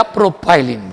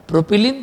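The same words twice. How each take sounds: First: प्रोपाइलिन with a "pai" diphthong; प्रोपाइलिन, middle syllable rhyming with "pie"; alternative pronunciation. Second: प्रोपिलीन with a short "pi" syllable; प्रोपिलीन, middle syllable "pi", not "pai"; short-i pronunciation. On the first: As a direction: say प्रोपाइलिन as pro-PIE-lin. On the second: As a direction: say प्रोपिलीन as pro-pi-LEEN. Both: Shown as a demonstration. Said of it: "आपको जो चाहिए वो आप बोलो".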